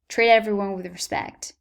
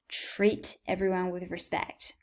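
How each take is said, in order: First: The T in 'treat' is a soft D. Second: The T in 'treat' is a crisp T.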